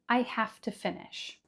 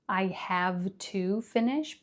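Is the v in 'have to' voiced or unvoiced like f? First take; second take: unvoiced; voiced. First: Have to is said with an f sound, hafta. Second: Have to is said with a clear v sound. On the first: The speaker calls it right. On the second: The speaker calls it wrong. "Not have to"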